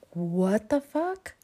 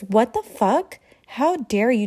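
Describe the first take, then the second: First: Slow, dragged-out shocked question; mock dumbfounded reaction; drawn-out incredulous what; stunned disbelief. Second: Loud, indignant outburst at catcallers; mock furious comeback; angry retort. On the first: She reacts to bracelet demand. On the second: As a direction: snap it out, offended and furious. Woman snaps back at catcallers.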